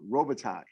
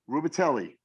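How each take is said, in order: First: Some letters of the name are left silent. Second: Every letter of the name is sounded. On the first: The speaker calls it right. "The man's name is Luc Robitaille" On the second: The speaker calls it wrong. "because he pronounced every letter exactly how it is, how it's spelled"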